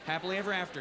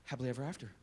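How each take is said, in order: First: Said in the usual way. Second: Lower, softer tender close; soft storybook ending. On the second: Shown as a demonstration. Parent closing a bedtime story, soft and tender. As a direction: sigh it like a lullaby. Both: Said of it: "How do they all end?".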